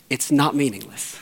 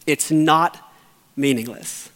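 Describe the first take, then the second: First: Said in the usual way. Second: Not pressed, pause before meaningless; stress on not. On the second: Real, not acted. Grieving pastor insisting to his church, stress on not.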